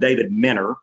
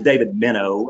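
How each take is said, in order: First: The surname is said in a local Arkansas pronunciation. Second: The surname is said in a standard pronunciation. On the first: This is how people in the speaker's home region say it. "that's how we pronounce it here" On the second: This is how the man's name is properly said. "his name is David Minnow"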